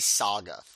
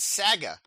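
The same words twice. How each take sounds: First: It is said with an American vowel. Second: It is said with a Canadian vowel. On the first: "we would say saga" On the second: "you said the word saga"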